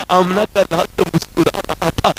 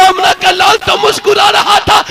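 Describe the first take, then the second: First: Said in the usual way. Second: High, loud repeat of आमना का लाल तो मुस्कुरा रहा था; same line called out high and loud to the crowd; preached shout. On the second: Shown as a demonstration. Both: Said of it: "repeated, then shouted".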